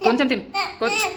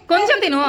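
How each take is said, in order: First: Said in the usual way. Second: High, loud urging on కొంచెం తిను; insistent coaxing. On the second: Real, not acted. Mother urging a child to eat, insistent coaxing.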